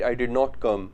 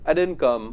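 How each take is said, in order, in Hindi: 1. 'Did not' को दो पूरे शब्दों की तरह बोला जाता है। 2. 'Did not' को एक शब्द में छोटा कर दिया जाता है। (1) "वो डिड नॉट को डिड नॉट बोलना ही प्रेफर करते हैं" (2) "अमेरिकन शॉर्ट फॉर्म्स बहुत यूज करते हैं"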